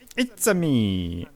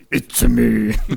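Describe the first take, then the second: First: It is said in a Mario-style put-on voice. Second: It is said in a Batman-style put-on voice. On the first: "dass du die Eröffnung mit so It's a me, [name] machst" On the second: "Oder in der Batman-Stimme"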